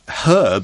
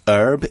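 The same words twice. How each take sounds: First: The word begins with a pronounced H sound. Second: The word begins without an H sound. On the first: "I say herb" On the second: "You don't pronounce the H so much"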